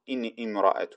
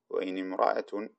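First: The hamza of imra'a is clearly pronounced. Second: The hamza of imra'a is dropped and linked. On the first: The speaker calls it wrong. "ونقول إن امرأة، لا" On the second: The speaker calls it right. "هكذا بحذف الهمزة"

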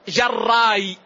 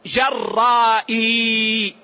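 First: The word ends with a short, unlengthened vowel. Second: The word ends with a lengthened vowel and glottal stop. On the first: "القصر جراي" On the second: "وبالمد جرائي"

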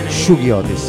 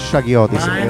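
First: The first vowel sounds like in 'sugar'. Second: The first vowel sounds like in 'shag'. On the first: This is the actual form, from a nickname. The speaker calls it right. "In realtà si pronuncia Shuggy" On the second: This is the habitual but mistaken form. The speaker calls it wrong. "noi siamo sempre stati abituati a chiamarle Shaggy Otis"

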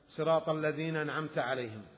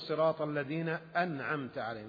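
First: The glottal stop before 'an'amta' is dropped. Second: The glottal stop before 'an'amta' is clearly pronounced. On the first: The speaker calls it wrong. "إذا أسقط الهمزة لعدم قدرته" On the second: The speaker calls it right. "لأن الهمزة همزة قطع"

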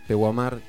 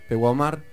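The two takes are said the same way.

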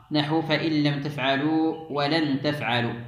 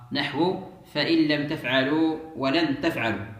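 Both takes have the same delivery.

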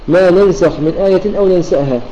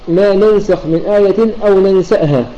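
No difference in how they are said.

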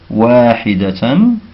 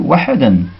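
First: The word has four syllables, ending in -tan. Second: The word has three syllables, ending in -dan. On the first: The speaker calls it right. "il ne déchiffre pas les mots du livre correctement" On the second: The speaker calls it wrong. "il l'a lu"

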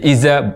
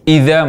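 First: The consonant is a z sound. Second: The consonant is a soft th sound. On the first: The speaker calls it wrong. "dari dzal menjadi zai" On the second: The speaker calls it right. "dari dzal menjadi zai"

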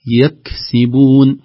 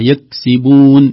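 First: The kaf has a light breathy release. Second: The kaf is barely heard at all. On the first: The speaker calls it right. "همس خفيف في مخرج الحرف" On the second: The speaker calls it wrong. "بدون أن يظهر الحرف"

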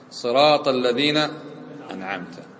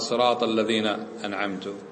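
First: The last word ends with a -ta sound. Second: The last word ends with a -tu sound. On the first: The one addressed gave the blessing. The speaker calls it right. "وأنت تخاطب الله عز وجل" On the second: The speaker gave the blessing. The speaker calls it wrong. "يصير من المنعم؟ هو المتكلم"

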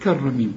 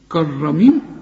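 First: The first consonant is light, not emphatic. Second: The first consonant is heavy and emphatic. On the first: The speaker calls it right. "الراء هي المفخمة" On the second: The speaker calls it wrong. "كرميم خطأ، ما أنت بتقول لك كرك"

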